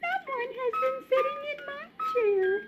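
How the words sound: It is said in a little baby voice.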